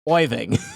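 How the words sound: The name is said in a Long Island accent.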